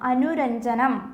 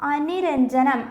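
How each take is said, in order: First: The second syllable has a u vowel. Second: The second syllable has an i vowel. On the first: The speaker calls it right. "അനുരഞ്ജനമാണ് ശരിയായത്" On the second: The speaker calls it wrong. "അനിരഞ്ജനമാണോ ശരിയായത്? അല്ല"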